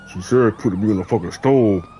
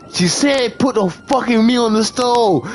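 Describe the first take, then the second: First: Low imitation of a stranger; hidden man's voice. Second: Higher, insistent imitation of the man; stranger's demand. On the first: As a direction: drop into an unseen man's lower voice. Unseen man's voice suddenly heard. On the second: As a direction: act out his pushy repeat, pitched up. Retold stranger repeating the order.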